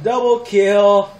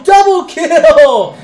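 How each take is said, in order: First: Loud, slow "double kill", no longer screamed; savouring triumph. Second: "double kill" yelled high, loud and drawn out; triumphant shout. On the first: Repeats it, settling from the shout. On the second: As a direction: shout it out slowly in sheer triumph. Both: Real, not acted.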